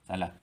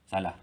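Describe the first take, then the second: No difference in how they are said.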